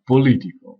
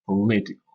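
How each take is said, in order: First: "political" with a loud, full O in the first syllable; "political" opening on a strong clear POL; wrong full O. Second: "political" as puh-LI-ti-cal; "political" with weak first syllable and stress on LI; correct reduced O. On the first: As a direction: say "political" as POH-li-ti-cal, O unreduced. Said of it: "pas political". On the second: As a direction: swallow the first vowel of "political" to a schwa. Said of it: "on prononce un E". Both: Shown as a demonstration.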